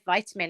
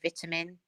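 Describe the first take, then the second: First: Vitamin is said the American way. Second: Vitamin is said the British way.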